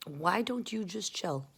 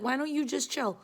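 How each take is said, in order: First: Slow, softer, measured repeat; slow plea. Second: Higher-pitched mock plea; exasperated plea. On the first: Retold or imitated. She tells difficult people to relax, slow soft plea. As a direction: draw each word out quietly. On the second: She can't understand people, higher exasperated plea. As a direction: plead it upward, exasperated.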